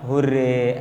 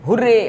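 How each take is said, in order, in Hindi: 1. यह सपाट तरीके से, धीमी और बेजान ऊर्जा के साथ कहा गया है। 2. यह ज़ोर से, अचानक उत्साह के विस्फोट के साथ कहा गया है। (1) "ऐसा नहीं बोलते हो मरा मरा हुर्रे" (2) "अचानक एक इमोशन का आउटबर्स्ट हुआ"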